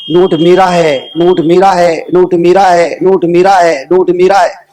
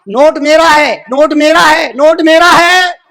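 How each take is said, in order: First: Low, measured repetition with falling ends; retold claim as a low litany; quoted claim. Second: High, insistent repeated cry; retold claim in a ringing preaching voice; declaimed claim. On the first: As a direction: intone each claim evenly, pitched down. Note quotes every owner, first take. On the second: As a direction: proclaim each claim high, stretching the last.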